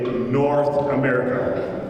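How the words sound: It is said with an American pronunciation. The speaker calls it right. "in America, we say North America"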